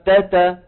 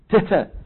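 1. للحرف همسة خفيفة وطفيفة. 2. للحرف همسة قوية ومبالغ فيها. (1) "موجود بس خفيف" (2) "المغاربة كمان بيبالغوا بالهمسة"

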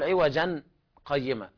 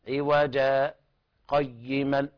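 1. تنتهي الكلمة الأولى بصوت النون. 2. تنتهي الكلمة الأولى بألف ممدودة. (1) "لا نقول عوجا قيمة لأنه لا يجوز الوقف على التنوين" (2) "فيبدل التنوين ألفا مادية تمد مقدار حركتين، هكذا"

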